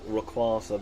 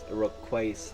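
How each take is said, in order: First: The middle syllable does not sound like 'quake'. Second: The middle syllable sounds like the word 'quake'. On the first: The speaker calls it wrong. "I liked pronouncing it like Rayquaza" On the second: The speaker calls it right. "it is Quake in its name, so it's Rayquaza"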